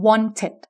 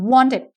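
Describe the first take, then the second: First: Second "wanted" as won-ted, aspirated t; clear middle t. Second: First "wanted" as won-ded, d-like middle; softened middle t. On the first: Teacher offers second variant, crisp t in wanted. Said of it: "หรือ". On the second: Teacher offers first variant, d-like middle in wanted. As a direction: voice the t of "wanted" toward a d. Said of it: "หรือ t". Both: Shown as a demonstration.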